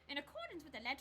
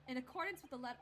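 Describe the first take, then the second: First: It is read in a put-on character voice. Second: It is read in the speaker's natural voice. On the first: The speaker calls it right. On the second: The speaker calls it wrong.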